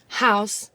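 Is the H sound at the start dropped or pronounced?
pronounced. The word starts with a clear H sound.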